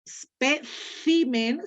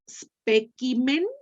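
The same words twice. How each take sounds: First: It uses the Hispanic pronunciation with an s-sound. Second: It uses the classical Latin pronunciation. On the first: "ceseando muy bonito como Josefina, sería hispánique" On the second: "sería clásique"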